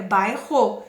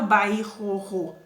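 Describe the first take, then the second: First: "bairro" with one single r sound; "bairro" said correctly, one r sound only; right pronunciation. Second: "bairro" with the rr split into two separate trilled r's; "bairro" with the double r sounded twice, wrongly; wrong pronunciation. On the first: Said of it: "É bairro". ("bairro" pronunciado certo, um só som de r) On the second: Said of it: "Eu não falo bairro". ("bairro" pronunciado errado, com os dois erres separados) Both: Shown as a demonstration.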